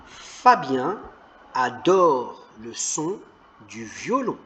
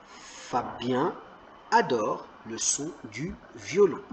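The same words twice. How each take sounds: First: Mots détachés, très lentement; déchiffre lentement pour les enfants; lecture lente. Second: Said in the usual way. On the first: Shown as a demonstration. (lecture hachée, mot à mot) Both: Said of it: "Très bien".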